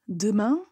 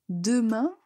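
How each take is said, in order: No difference in how they are said.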